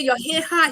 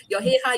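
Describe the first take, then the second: First: Gruff first remark. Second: "Your hair high." said again lighter, a pleasant compliment; trying to be pleasant. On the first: General first blurting at the reporter, blunt and gruff. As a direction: blurt "Your hair high." bluntly before softening. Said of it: "then he changed it. He tried to be pleasant". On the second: General correcting himself to charm the reporter, pleasant. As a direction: soften "Your hair high." into a friendly remark. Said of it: "He tried to be pleasant". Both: Retold or imitated.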